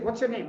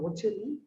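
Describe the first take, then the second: First: It is asked in a blunt, demanding tone. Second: It is asked in a sweet, gentle tone. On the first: It provokes resistance and conflict. The speaker calls it wrong. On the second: It makes the other person willing to answer. The speaker calls it right.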